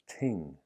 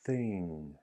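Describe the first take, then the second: First: The word begins with a plain t sound. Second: The word begins with a th sound. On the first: The speaker calls it wrong. "not ting" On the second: The speaker calls it right. "th together"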